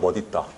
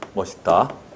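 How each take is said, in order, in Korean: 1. 가운데 자음은 ㄷ 소리입니다. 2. 가운데 자음은 ㅅ 소리입니다. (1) "원칙 표준 발음은 멋있다요 ... 디귿 받침" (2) "허용 표준 발음이 멋있다요"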